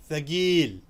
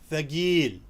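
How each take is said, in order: The two takes are said the same way.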